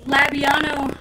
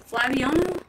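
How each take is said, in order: First: Said in the usual way. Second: Flabiano with a questioning rise at the end; unsure questioning. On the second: Real, not acted. Streamer unsure how to say a friend's name, questioning rise on Flabiano. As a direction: try out Flabiano, tune lifting as if asking. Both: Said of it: "I don't know how to say that name".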